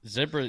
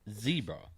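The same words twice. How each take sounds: First: Zebra is pronounced the non-American way. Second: Zebra is pronounced the American way. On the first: "how everybody else says it, apart from America" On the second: "America is the only place that says zebra"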